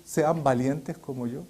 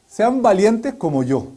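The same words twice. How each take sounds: First: Quiet echo, not boasting. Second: Louder, slow, puffed-up "Sean valientes como yo"; boastful Hezekiah. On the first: Shown as a demonstration. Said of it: "Puede usted decir". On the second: Retold or imitated. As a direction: ham up a proud king bragging. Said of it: "diciendo Ezequías".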